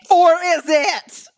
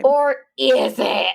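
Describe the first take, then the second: First: Slow, higher and louder or is it; ominous echo. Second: Slow, spooky or is it; dramatic tease. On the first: Echoing the co-host's teaser, hammed-up and ominous. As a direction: ham up the cliffhanger. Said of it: "echoes dramatically". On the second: Teasing a twist to the co-host, slow and ominous. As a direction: draw out the teaser like a trailer. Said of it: "dramatic tease". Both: Pretend.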